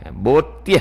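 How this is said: The first vowel is a rounded 'o' sound.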